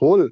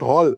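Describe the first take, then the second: First: The vowel sounds like 'oh', as in hole. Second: The vowel sounds like 'aw', as in hall. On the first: The speaker calls it right. "This is হোল not" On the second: The speaker calls it wrong. "হোলকে যদি হল বলে"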